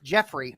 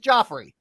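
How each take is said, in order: First: The first syllable sounds like 'Jeff'. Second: The first syllable sounds like 'Joff'. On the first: The speaker calls it wrong. "That was that was a bastardized pronunciation" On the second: The speaker calls it right. "My name is Joffrey"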